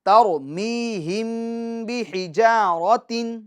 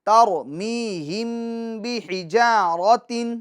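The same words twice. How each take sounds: No difference in how they are said.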